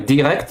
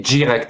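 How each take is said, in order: First: The d is a plain stop without friction. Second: The d is followed by a hissing friction. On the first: "au lieu de dire direct" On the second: "tu dis direct ... Ça, c'est une affrication"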